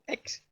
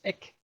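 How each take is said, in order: First: The word ends with a ks sound. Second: The word ends with a plain k sound. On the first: "Le premier petit mot, ex" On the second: "ex parfois se prononce ek, selon les prononciations"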